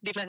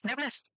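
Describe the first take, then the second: First: डीफनेस with a long "ee", like "deef-ness"; long-ee Hindi reading. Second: डेफनेस with a short "e", like "def-ness"; short-e English form. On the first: Teacher unsure of English word, tries डीफनेस with long "ee". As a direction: say डीफनेस stretching the first vowel to "dee". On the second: Teacher settles on डेफनेस with short English "e". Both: Shown as a demonstration. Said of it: "जो भी क्या बोलते हैं English में".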